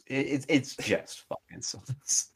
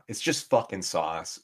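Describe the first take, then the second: First: Higher, drawn-out, soft, about to laugh; breaking into laughter. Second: Said in the usual way. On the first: Real, not acted. Repeating the dig at Italian food to co-host, cracking up. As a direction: stammer it out as laughter takes over.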